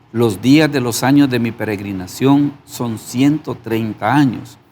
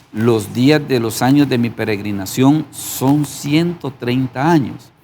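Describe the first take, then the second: No difference in how they are said.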